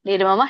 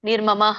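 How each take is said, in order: First: The word ends on a plain vowel, no h. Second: The word ends with a breathy h sound. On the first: The speaker calls it right. "ನಿರ್ಮಮ ಶಾಂತೋ ಹೇಳ್ಬೇಕು" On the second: The speaker calls it wrong. "ನಿರ್ಮಮಃ ಅಂತ ಹೇಳ್ಬೇಡಿ"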